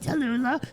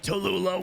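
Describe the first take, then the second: First: It is said in an elderly woman's voice. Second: It is said in an elderly man's voice. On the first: "The granny voice is the culprit" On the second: "It was the old man voice"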